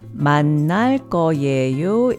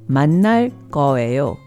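First: It is read just as it is spelled. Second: It is said the way natives pronounce it. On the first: "When spoken" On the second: "is pronounced"

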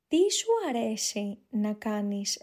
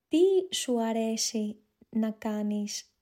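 First: It is spoken at a natural, faster pace. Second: It is spoken at a slow pace. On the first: "a more natural speed" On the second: "One time slowly"

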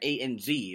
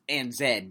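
First: The last letter is pronounced zee. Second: The last letter is pronounced zed. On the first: "A-N-Z is what I say" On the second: "Z meaning Z in, you know, Australian and British English"

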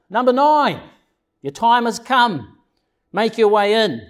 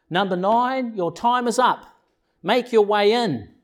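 First: It is said more loudly. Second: It is said at a normal, softer volume.

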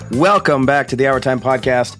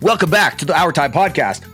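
First: It is said in a plain, ordinary way. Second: It is said in a hyped YouTuber style.

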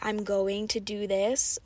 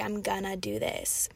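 First: 'Going to' is said in full as two words. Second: 'Going to' is reduced to one word, 'gonna'. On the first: This is the careful, formal form. The speaker calls it wrong. "we don't generally say" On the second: This is the casual, informal form. The speaker calls it right. "We say I'm gonna do this, if you're speaking informally"

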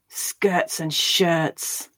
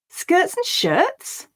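First: It is spoken with anger. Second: It is spoken with surprise. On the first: "Now angrily" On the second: "Now we'll say it with surprise"

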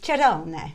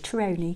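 First: The name is said with an Italian accent. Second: The name is said with an English accent. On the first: "So it's Cerone" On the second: "as you might say in English"

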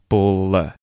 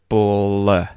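The two takes are said the same way.

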